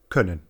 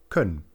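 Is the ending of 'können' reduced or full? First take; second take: full; reduced. First: The ending vowel is said in full. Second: The ending vowel is reduced and weak. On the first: This is the careful standard form. "statt können" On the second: This is the casual everyday form. "die meisten Leute umgangssprachlich können"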